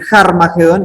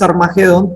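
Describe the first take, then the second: First: The word begins with a breathy J-like sound. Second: The word begins directly with a vowel sound. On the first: The speaker calls it right. "ese espíritu se lee como una J" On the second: The speaker calls it wrong. "Nosotros decimos Armagedón"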